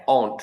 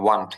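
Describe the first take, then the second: First: Won't said the American way, with a rounded o as in "own". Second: Won't said like "want", with an open a sound; British-style want. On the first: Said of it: "এটা American উচ্চারণ". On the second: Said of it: "ব্রিটিশে একটু want টাইপের বলে". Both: Shown as a demonstration.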